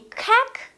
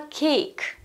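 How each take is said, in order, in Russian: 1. Гласный звук — короткий, простой 'a'. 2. Гласный звук — долгий 'ay'. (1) "Чтобы у нас читалось не как" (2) "а cake"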